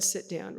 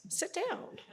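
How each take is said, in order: First: Said in the usual way. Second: Sit down sung up high with a lift at the end; playful command. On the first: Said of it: "I could have just said". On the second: Shown as a demonstration. Father showing his daughter a short command, light and lilting. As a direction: toss it off lightly with a rising lilt. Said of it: "I could have just went".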